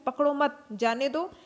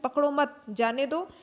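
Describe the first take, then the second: First: There is a pause after the second word. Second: There is a pause after the second word.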